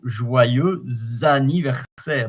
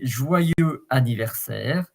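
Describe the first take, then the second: First: A Z sound links into the next word. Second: The words are said separately without linking. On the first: "because the X at the end is like a Z" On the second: "you can say joyeux anniversaire"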